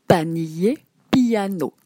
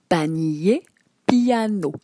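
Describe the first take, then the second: No difference in how they are said.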